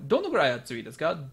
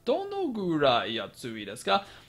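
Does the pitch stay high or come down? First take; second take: stays high; comes down. First: The pitch stays high through the phrase. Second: The pitch comes down within the phrase. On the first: "You can keep it high" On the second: "or you can even come"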